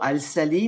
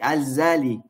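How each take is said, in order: First: The middle consonant is a hissing s sound. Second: The middle consonant is a buzzing z sound. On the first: The speaker calls it wrong. "Ça ne se dit pas" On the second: The speaker calls it right. "mais ça se dit"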